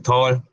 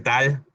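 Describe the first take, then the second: First: The vowel sounds like an 'o' or 'aw'. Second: The vowel sounds like a plain Spanish 'a'. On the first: The speaker calls it right. "se convierte en O L para pronunciar. Por eso se dice tall" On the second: The speaker calls it wrong. "Hay gente que dice tal"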